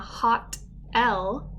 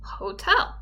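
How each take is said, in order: First: It is split into two separate parts. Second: It is said smoothly as one word. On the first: The speaker calls it wrong. "read words incorrectly" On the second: The speaker calls it right. "the correct pronunciation"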